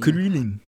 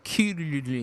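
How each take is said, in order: First: The name is said with English sounds, like krillin. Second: The name is said with Japanese sounds, like kululin.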